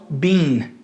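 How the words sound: It is said in a British accent. "No inglês britânico, ele é mais pronunciado com som de I"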